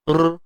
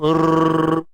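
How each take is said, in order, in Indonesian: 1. R digetarkan dengan satu ketukan. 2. R digetarkan dengan dua ketukan. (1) "tu satu" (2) "Kalau dua"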